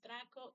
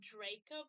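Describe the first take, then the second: First: The name is said with a Spanish pronunciation. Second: The name is said with an English pronunciation. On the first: "it is the pronunciation in Spanish" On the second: "that's the pronunciation most English speakers are used to"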